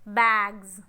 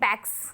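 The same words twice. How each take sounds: First: The word ends with a buzzing z sound. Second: The word ends with a hissing s sound. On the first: The speaker calls it right. "you have to pronounce z" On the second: The speaker calls it wrong. "We are not saying"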